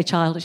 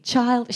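First: Put-on soft child. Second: Said in the usual way. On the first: Shown as a demonstration. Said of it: "she wouldn't say". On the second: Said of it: "she wouldn't say "child".

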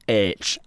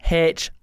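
First: H said as "aitch", with no h sound; "aitch", lower, for H; pronounced aitch. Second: H said as "haitch", with an audible h; pronounced haitch. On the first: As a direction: start H straight on the vowel. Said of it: "one doesn't". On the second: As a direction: breathe an h at the front of H. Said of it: "One's got a H in the front". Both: Shown as a demonstration.

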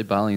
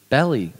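First: "Bali" with a long open a, BAH-lee; others' pronunciation. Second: "Bali" with a short front a, like "belly"; mock-authoritative "Bali", rhyming roughly with "belly"; supposedly correct pronunciation. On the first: Retold or imitated. Teasing how the others say it, "Bali" as BAH-lee. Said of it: "when you guys say Bali". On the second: Shown as a demonstration. Host correcting the others, "Bali" pronounced like "belly". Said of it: "which is how it's pronounced".

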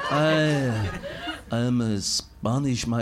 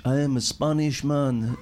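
First: Low, halting fake Spanish slipping into French; Spanish turning French. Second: Failed Spanish accent. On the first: Retrying the Spanish man, accent drifting into French. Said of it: "It's French". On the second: Trying out Spanish for the room, a wobbly fake Spanish accent. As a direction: attempt Spanish and miss, crooning it. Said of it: "How can I do Spanish?". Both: Shown as a demonstration.

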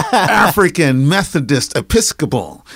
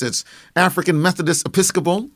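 First: "African Methodist Episcopal" said slowly, syllable by syllable; savored repeat. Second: Said in the usual way. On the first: Shown as a demonstration. Interviewee repeats the church name to the host, savoring "African Methodist Episcopal" slowly. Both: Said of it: "Let me say that again".

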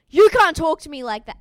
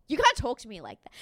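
First: Much louder indignant yell, a touch higher; mock shout. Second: Rattled off fast, slightly louder, half-hearted mock snap; quick retort. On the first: Retelling Billy snapping at Susie, hammed-up loud yell. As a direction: bellow it like a wounded tough guy. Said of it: "Billy's next words are". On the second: Retelling Susie snapping at Billy, fast mock retort. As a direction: toss it off quick and petty. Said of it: "And she goes".

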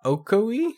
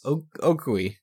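First: "Ocoee" sounded out high, rising into a question; puzzled, high-pitched guess at "Ocoee"; unsure pronunciation. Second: "Ocoee" after a false start, falling at the end; tentative "Ocoee", landing as a statement; hesitant pronunciation. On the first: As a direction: try "Ocoee" as oh-KOH-ee, unsure. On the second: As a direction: stumble on the O, then settle on "Ocoee". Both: Real, not acted. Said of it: "I legit do not know".

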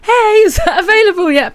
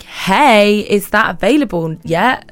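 First: Much higher, louder, bright friendly take; friendly, as meant. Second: Curt email voice reading as snippy; plain; passive aggressive. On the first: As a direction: chirp it to sound friendly. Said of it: "what I mean is". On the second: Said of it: "I always sound really passive aggressive". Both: Shown as a demonstration.

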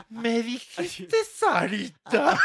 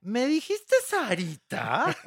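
First: High, loud, very slow shouted question; mock outrage. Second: High, slow, laughing disbelief; indignant question. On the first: Replaying Anel's line to the hosts, shouted slowly. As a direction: blast it out in hammed-up disbelief. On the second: Retold or imitated. Anel to the reporter, slow and laughing in disbelief. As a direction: drag it out, daring him to repeat it. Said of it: "Voltea a Anel y le dice".

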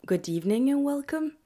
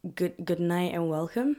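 First: A host's higher, brighter on-air greeting; lightly put-on host voice opening the show; show host welcome. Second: Said in the usual way. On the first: Shown as a demonstration. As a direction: greet the listeners like a radio host. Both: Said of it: "Je sais pas comment je suis censée introduire ça en anglais".

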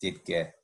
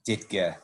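First: Ditka, low and clipped with the t swallowed; a quiet, dropped Ditka the local way; Ditka, Chicago style. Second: Ditka, short and dropped, t swallowed; Ditka, Chicago style. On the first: Host repeating Ditka for co-host the proper Chicago way. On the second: Host demonstrating to co-host how to say Ditka. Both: Shown as a demonstration. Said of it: "You gotta say it that way".

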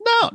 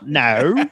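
First: Said in the usual way. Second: Joking Australian accent on "no"; Australian accent attempt. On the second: Shown as a demonstration. Host asked to do Australian, joking one-word accent. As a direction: bend "no" into a mock Australian vowel. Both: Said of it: "Can you two do one?".

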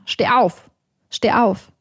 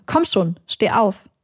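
First: Slightly raised, insistent command; lauter werdend. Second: Said in the usual way. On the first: A narrator's reading. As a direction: order it with a touch more force. (etwas lauter und drängend) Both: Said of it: "Er wird lauter".

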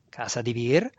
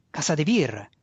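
First: Mocking echo with a rising question; amused derision. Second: Mildly indignant statement, falling at the end. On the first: Faceless master echoing the student's house, mocking. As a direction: repeat it as a scornful, amused question. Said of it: "senza volto rise". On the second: Student naming his noble house, mildly indignant. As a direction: state it with a touch of affronted pride. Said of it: "disse indignato". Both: A narrator's reading.

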